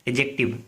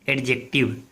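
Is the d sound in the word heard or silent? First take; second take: silent; heard. First: The d sound is left out. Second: The d sound is clearly pronounced. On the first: The speaker calls it right. "इसका pronunciation होता है एजेक्टिव" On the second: The speaker calls it wrong. "लेकिन इसका एडजेक्टिव pronunciation नहीं होता"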